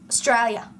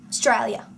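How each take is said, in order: Both takes have the same delivery.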